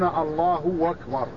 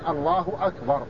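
First: The vowel joining the words is stretched like 'w'. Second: The vowel joining the words is short and light. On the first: The speaker calls it wrong. "هذا خطأ" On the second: The speaker calls it right. "ليس بين لفظ الجلالة وأكبر واو، وإنما هي ضمة"

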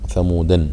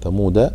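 First: The word ends with an added -an sound. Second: The word ends without an added -an sound. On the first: It names the forefather of the tribe. "فإذا قال ثمودا إذا يقصد به الأب" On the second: It names the whole tribe. "وثمود يقصد به القبيلة التي تنسب"

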